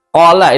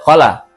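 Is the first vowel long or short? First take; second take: long; short. First: The first vowel is held long. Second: The first vowel is cut short. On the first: The speaker calls it right. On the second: The speaker calls it wrong.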